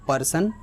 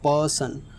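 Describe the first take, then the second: First: The stress is on the second syllable. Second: The stress is on the first syllable. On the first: The speaker calls it wrong. "It is not person" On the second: The speaker calls it right. "इधर जो starting में बोलते समय हम ज़्यादा stress दे रहे हैं"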